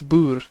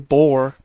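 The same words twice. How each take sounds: First: It is said the Dutch way. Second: It is said the common English way. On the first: The speaker calls it right. "It's boer" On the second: The speaker calls it wrong. "Most people say boer"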